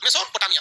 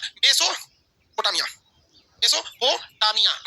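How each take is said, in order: First: Said in the usual way. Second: Slow drill of Mesopotamia; drawn out. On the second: Shown as a demonstration. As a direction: stretch every syllable of Mesopotamia very slowly. Teacher repeats the answer slowly.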